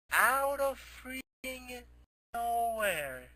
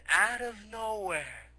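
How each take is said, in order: First: "out of freaking nowhere" drawn out very slowly and higher; bigger slow emphasis. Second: "out of nowhere" said slowly, each word weighted; slow down and lean on "out of nowhere"; slow emphasis. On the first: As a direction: stretch "freaking" slow and high for suspense. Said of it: "repeats it bigger". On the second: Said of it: "builds the surprise entrance". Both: A narrator's reading.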